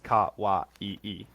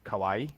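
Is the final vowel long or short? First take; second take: long; short. First: The final vowel is lengthened, held longer. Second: The final vowel is short, not lengthened. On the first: The speaker calls it right. "they don't lengthen because technically it's kawaii" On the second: The speaker calls it wrong. "they probably don't pronounce it correctly"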